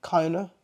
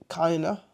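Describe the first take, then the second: Both takes have the same delivery.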